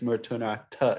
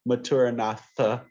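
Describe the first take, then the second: First: The th is a t with aspiration. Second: The th is an English th sound. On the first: The speaker calls it right. "It's a it's a aspirated H. It's not a th sound" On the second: The speaker calls it wrong. "it's not maturanatha"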